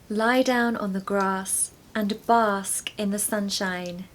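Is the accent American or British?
British. It is said in a British accent.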